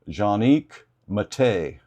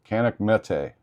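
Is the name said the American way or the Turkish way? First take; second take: Turkish; American. First: The name is said with a Turkish pronunciation. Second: The name is said with an American pronunciation. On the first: This is how people in the maker's country say it. "the Turkish they pronounce it" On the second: This is how people in the United States say it. "us Americans we just call it Canik"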